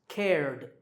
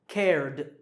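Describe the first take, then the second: Both takes have the same delivery.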